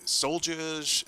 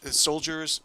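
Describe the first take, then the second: First: Soldiers said the Boston way, as "solljahs", with no r; a slip into a Boston accent on soldiers. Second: Said in the usual way. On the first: Real, not acted. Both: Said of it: "that was my Boston accent coming out there".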